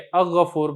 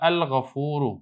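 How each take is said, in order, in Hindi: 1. 'l' छोड़ा जाता है और 'gh' दोहरा जाता है। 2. 'l' 'gh' से पहले साफ़ सुनाई देता है। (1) "इसको आप ऐसे नहीं करना कि हमज़ा को आप बराह रास्त गा से पढ़ के" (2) "लाम पढ़ा जाएगा"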